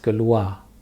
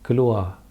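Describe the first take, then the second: First: The final R is silent. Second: The final R is silent.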